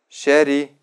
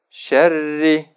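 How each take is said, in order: First: The r sound is short and single. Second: The r sound is held long and doubled. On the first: The speaker calls it wrong. "Не стоит говорить так" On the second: The speaker calls it right. "Нужно так"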